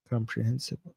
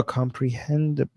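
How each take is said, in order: First: "Comprehensible" ending in "-sible", with an s sound; misread word. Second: "comprehensible" said as "comprehendible", with a d; corrected reading. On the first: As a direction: say "Comprehensible" with "-hen-sible" at the end. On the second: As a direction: swap the s in "comprehensible" for a d: "-hen-dible". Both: Real, not acted. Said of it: "I read that wrong as well".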